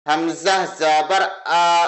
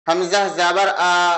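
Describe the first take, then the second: First: The sound is said softly without a jolt. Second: The sound is said harshly with a jolt. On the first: The speaker calls it right. "नरमी के साथ पढ़ें" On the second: The speaker calls it wrong. "ऐसा नहीं पढ़ना है"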